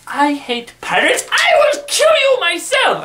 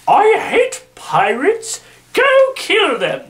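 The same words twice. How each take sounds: First: High put-on queen voice, exploding into a loud shriek; a hammed-up queen screaming her threat; mock furious queen. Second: Slow, high, put-on queen's voice, rising to a shriek; mock Queen Victoria. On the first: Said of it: "It's more along the lines of". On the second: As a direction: camp up a wicked queen's order. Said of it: "as she says".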